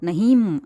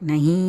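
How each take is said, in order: First: The word ends with a full m consonant. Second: The word ends in a nasalized long vowel. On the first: The speaker calls it wrong. "அப்படியெல்லாம் சொல்லக்கூடாது" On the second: The speaker calls it right. "நஹீ அப்படி தான் சொல்லணும்"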